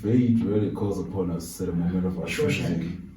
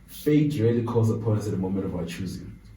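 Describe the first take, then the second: First: It is said in an imitated character voice. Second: It is said in the speaker's ordinary voice.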